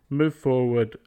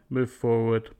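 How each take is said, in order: The two takes are said the same way.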